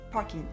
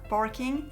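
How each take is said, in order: First: The R sound is dropped. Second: The R sound is pronounced. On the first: "les R ne sont pas prononcés" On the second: "c'est pas parking"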